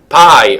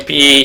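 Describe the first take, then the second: First: The name rhymes with 'sky'. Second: The name rhymes with 'see'. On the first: The speaker calls it right. "I think that's that's better" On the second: The speaker calls it wrong. "P is quite offensive"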